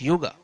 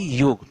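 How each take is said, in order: First: The word ends with a final a vowel. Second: The word ends on the consonant g. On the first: This is the English form. The speaker calls it wrong. "not yoga" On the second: This is the original Sanskrit form. The speaker calls it right. "Pure pronunciation is only yog"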